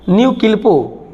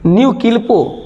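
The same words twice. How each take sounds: The two takes are said the same way.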